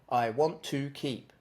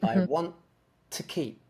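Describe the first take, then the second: First: The word 'to' has a full, slow oo vowel. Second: The word 'to' has a quick, reduced vowel. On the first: The speaker calls it wrong. "use oo, you're going to end up making it too slow" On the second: The speaker calls it right. "But it should be"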